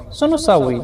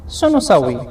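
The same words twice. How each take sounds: The two takes are said the same way.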